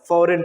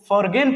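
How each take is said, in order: First: No g sound is pronounced in the middle. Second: A g sound is pronounced in the middle. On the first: The speaker calls it right. "फॉरेन पढ़ना है" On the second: The speaker calls it wrong. "जो कि बिल्कुल गलत sound है"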